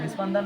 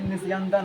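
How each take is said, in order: First: The middle consonant is a 'p' sound. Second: The middle consonant is a 'y' sound. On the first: The speaker calls it wrong. "निस्पंदन नहीं" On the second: The speaker calls it right. "निस्यंदन है।"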